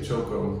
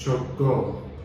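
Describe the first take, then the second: First: The final O is weak and unstressed. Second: The final O is strong and stressed. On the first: The speaker calls it wrong. "they don't like when you say Choco because that's incorrect" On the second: The speaker calls it right. "You gotta say it with a strong O at the end"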